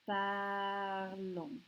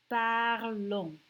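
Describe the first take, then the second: First: Parlons said again softly, par-LON, no S; quieter repeat. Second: Parlons said par-LON, nasal ending, no S; model pronunciation. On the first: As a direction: echo Parlons gently. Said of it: "we don't pronounce the S". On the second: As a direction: say parlons clearly. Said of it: "it becomes nous". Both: Shown as a demonstration.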